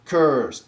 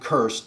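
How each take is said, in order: First: The vowel is drawn out and long. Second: The vowel is short and clipped. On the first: This is how it was said in the Middle Ages. "a longer vowel" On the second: This is how it is said today. "instead of saying cursed"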